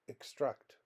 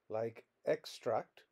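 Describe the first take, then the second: First: The stress is on the second syllable. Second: The stress is on the first syllable. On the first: It is used as a verb. "a verb where the stress is on the second syllable" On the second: It is used as a noun. "a noun, like extract, where the stress is on the first syllable"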